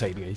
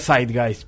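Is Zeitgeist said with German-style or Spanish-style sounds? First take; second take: Spanish-style; German-style. First: The word is said with Spanish-style sounds. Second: The word is said with German-style sounds. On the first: This is the everyday practical way of saying it. "para todos los fines prácticos le decimos Zeitgeist" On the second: This is the proper pronunciation of the word. "La pronunciación adecuada sería Zeitgeist"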